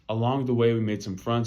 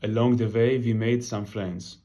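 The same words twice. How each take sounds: First: It is said in the speaker's own usual accent. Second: It is said in an imitated relatives' accent.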